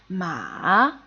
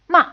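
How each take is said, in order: First: The pitch dips low, then rises higher. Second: The pitch starts high and falls quickly. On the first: "slightly going lower, fading, and then coming up higher and a bit louder" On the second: "It's a quickly falling and fading tone"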